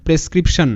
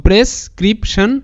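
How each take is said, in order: First: Said in the usual way. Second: Slow, split into three beats; syllable by syllable. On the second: Shown as a demonstration. Teacher rebuilds the word for students, syllable by syllable. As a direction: sound out prescription with a break between parts. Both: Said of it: "ভাঙবো তারপরই উচ্চারণটা করব".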